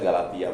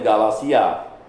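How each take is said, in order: First: The middle consonant is pronounced as t. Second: The middle consonant is pronounced as s. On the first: This is the accepted Indonesian form. "kalau Indonesia Galatia pun enggak apa" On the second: This is the proper original form. "Sebenarnya Galasia"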